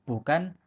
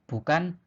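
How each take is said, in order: No difference in how they are said.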